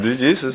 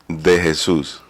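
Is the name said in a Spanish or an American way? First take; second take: American; Spanish. First: It is said the American way. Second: It is said the original Spanish way.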